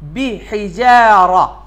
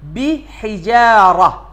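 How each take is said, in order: Both takes have the same delivery.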